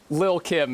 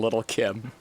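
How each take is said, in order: First: The first word is said as lil without T's. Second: The first word is said as little with T's. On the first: The speaker calls it right. "excuse me" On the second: The speaker calls it wrong. "I'm sorry for pronouncing the T's in little"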